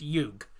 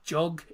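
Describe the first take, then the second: First: The name begins with a Y sound. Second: The name begins with a J sound. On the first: The speaker calls it right. "the J is pronounced with a, as a Y" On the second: The speaker calls it wrong. "it's not Jug"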